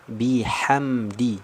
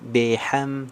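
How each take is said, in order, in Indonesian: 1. Vokal setelah b adalah i penuh yang jelas. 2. Vokal setelah b itu miring, bukan i penuh. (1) "kasrah sempurna" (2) "jangan miring"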